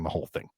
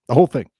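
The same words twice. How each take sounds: First: Said in the usual way. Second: "whole thing" repeated higher and louder, stress on "whole"; emphatic repeat with "whole" hit hard. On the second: Shown as a demonstration. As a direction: punch "whole" to drive it home.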